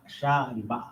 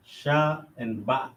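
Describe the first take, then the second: First: Said in the usual way. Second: Sha and Ba drawn out at half speed; slow, careful sounding out. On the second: Shown as a demonstration. Teacher slowing down to show how letters join. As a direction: go slowly through Sha and Ba.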